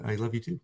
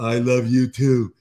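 First: Soft, simple retold endearment; sweet and unrushed. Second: Loud, slow, drawn-out mock reply; exaggerated kids' reply. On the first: Parent retelling stepdaughter's reply today, sweet and soft. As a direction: say it gently, without any show. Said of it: "it was so sweet and, and nice". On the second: Parent imitating kids answering at drop-off, exaggerated. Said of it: "not, like, rushed, like, really".

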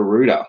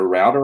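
First: Router said as ROO-ta; other pronunciation. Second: Router said as ROW-ta, rhyming with "outer"; Australian pronunciation. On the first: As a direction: say router with an "oo" vowel. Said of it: "don't wanna say the router". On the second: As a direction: say router with an "ow" vowel. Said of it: "it's definitely a router". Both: Shown as a demonstration.

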